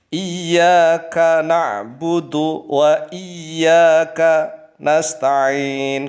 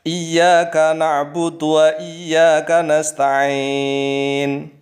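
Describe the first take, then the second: First: The words are separated by breaks. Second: The words run together quickly without breaks. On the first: "kafnya dengan na'budunya terpisah. Contohnya begini" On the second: "Tapi kalau membaca cepat, ya nggak apa-apa"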